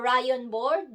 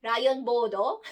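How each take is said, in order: First: Said in the usual way. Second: "rayon bodo" with open Japanese vowels, rising at the end; Japanese-style "rayon bodo", board ending in an o; Japanese pronunciation. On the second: Shown as a demonstration. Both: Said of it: "Japanese pronunciation".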